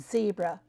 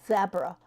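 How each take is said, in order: First: It is said in an American-style pronunciation. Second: It is said in a British-style pronunciation. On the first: This is the speaker's usual way of saying it. The speaker calls it right. "instead of zebra" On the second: This imitates someone else's mispronunciation. The speaker calls it wrong. "he says zebra"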